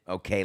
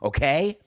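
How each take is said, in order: First: The okay is said in a relaxed, breathing way. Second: The okay is said in a bold, assertive way. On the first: The speaker is taking a moment to breathe. "let me breathe" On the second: The speaker is asserting who they are. "Like here's here's who I am, okay?"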